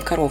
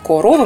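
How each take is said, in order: First: The unstressed first vowel is reduced, close to 'a'. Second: Every vowel is pronounced as a full 'o'. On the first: "мы говорим" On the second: "Если написано"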